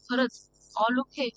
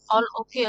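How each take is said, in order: First: Slow, drawn-out mocking echo of her words. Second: Self-reassuring. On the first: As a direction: stretch out the all okay in disbelief. Husband mocks her all okay. (थट्टेने हळू हळू म्हटलेले) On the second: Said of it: "असं ती म्हणत असते". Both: A narrator's reading.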